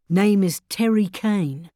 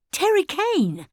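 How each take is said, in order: First: Said in the usual way. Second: High, startled echo of the name; shocked question. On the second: Acted. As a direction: repeat the name in disbelief.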